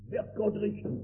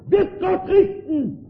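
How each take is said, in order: First: Viel leiser, fast verstummend; verstummt. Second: Hoch und laut aufgeschrien, langsam; aufschreiend. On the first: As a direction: die Frage bleibt im Hals stecken. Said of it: "Da werden die Mäuler verstummen". (leise, verstummende Frage) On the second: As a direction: die Welt schreit entsetzt auf. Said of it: "schrie sie auf". (laut und langsam aufschreiend) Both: Retold or imitated.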